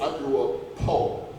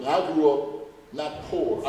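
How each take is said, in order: First: "poor" said as "po", no R, slow; po' said as "po". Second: Said in the usual way. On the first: Shown as a demonstration. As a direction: drop the R: "poor" sounds like "po". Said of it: "P O, not P O R, poor". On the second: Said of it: "P O, not P O R".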